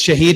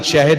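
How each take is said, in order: First: "Shaheed" with a long ee in the second syllable; Shaheed pronunciation. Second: "Shahid" with a short, unstressed final syllable; Shahid pronunciation. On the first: Speaker correcting listeners on his own name, "Shaheed" with long ee. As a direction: say "Shaheed" ending in a drawn "heed". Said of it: "not Shahid. Shahid is my brother". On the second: Speaker showing his brother's name, "Shahid" with short ending. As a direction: say "Shahid" without the long ee. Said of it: "it's Shaheed, not Shahid". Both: Shown as a demonstration.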